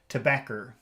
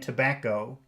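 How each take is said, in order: First: The word ends with an added R sound. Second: The word ends in a plain vowel, no R. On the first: "that R again that shouldn't be there" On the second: "Instead of saying tobacco"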